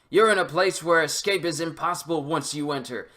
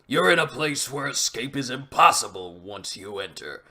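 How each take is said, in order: First: It is read in a plain, everyday voice. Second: It is read in a put-on character voice. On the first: The speaker calls it wrong. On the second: The speaker calls it right.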